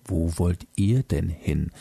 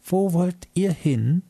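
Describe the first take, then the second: First: Lower, stern voice looking down on them; stern moon voice. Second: Put-on high, slow, curious little girl's question; a small girl asking eagerly in a squeaky voice. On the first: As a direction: ask it like a strict guardian, low and stern. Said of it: "schaute streng auf uns hinab". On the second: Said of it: "mit neugieriger, piepsiger Stimme". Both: A narrator's reading.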